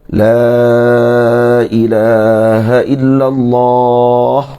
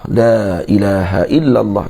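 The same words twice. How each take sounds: First: The vowel of the first word is drawn out long. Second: The vowel of the first word is kept short. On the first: It brings a deep feeling of denying divinity to all but God. "Mat kan alif pada la nafiyah ... Baca gitu" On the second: The speaker will not die before finishing the phrase. "memilih memendekkan kalimah"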